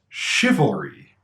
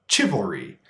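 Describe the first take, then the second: First: The word begins with an sh sound. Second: The word begins with a ch sound. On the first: The speaker calls it right. "The first one is pronounced chivalry" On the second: The speaker calls it wrong. "you thought the first word was pronounced chi"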